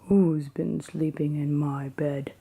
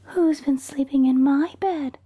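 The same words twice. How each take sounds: First: It is said in Papa Bear's big grumpy voice. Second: It is said in Mama Bear's medium-sized voice.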